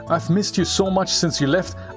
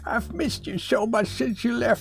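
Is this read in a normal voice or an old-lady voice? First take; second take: normal; old-lady. First: It is read in the speaker's normal voice. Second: It is read in a put-on grandma voice. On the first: The speaker calls it wrong. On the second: The speaker calls it right.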